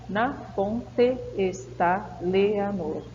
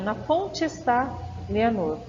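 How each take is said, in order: First: The two meeting vowels are said separately. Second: The two meeting vowels are joined together. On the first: The speaker calls it wrong. "Ninguém fala assim" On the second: The speaker calls it right. "nós fazemos a junção do som"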